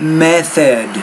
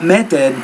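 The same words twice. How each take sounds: First: The middle sound is made with tongue between teeth. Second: The middle sound is made without tongue between teeth. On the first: The speaker calls it right. "you want to pronounce it with the tongue between your teeth" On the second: The speaker calls it wrong. "Not method"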